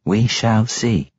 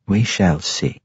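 First: Slow, drawn-out matron echo; matronly voice. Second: Lightly voiced matron, even; a hint of a cool matriarch; matronly voice. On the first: Acted. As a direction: let the words hang slowly. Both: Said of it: "said the matron mother".

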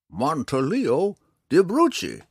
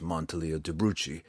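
First: High, loud, slow full-name flourish; proud old man. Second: Said in the usual way. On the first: A narrator's reading. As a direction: roll out the grand name proudly. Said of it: "explained proudly".

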